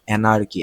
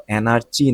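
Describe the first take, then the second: First: অ্যানার্কি with a hard k, a-nar-ki; অ্যানার্কি, k not ch, falling finish; correct pronunciation. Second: অ্যানার্চি said with a ch sound, a-nar-chi; অ্যানার্চি pronounced with ch instead of k; wrong pronunciation. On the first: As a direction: say অ্যানার্কি with a clear k sound. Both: Shown as a demonstration. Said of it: "এটার উচ্চারণ হলো অ্যানার্চি না".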